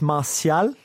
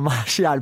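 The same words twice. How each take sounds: First: The name is pronounced the French way. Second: The name is pronounced the English way. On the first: The speaker calls it right. "It's Martial" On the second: The speaker calls it wrong. "not Martial"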